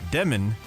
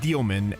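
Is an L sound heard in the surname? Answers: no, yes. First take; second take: no; yes. First: The surname is said without an L sound. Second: The surname is said with an L sound. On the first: This is the form the player asked for. "he was very clear there was, you know, Demon" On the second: This is the traditional form of the name. "the pr- traditional pronunciation of his last name is Dielman"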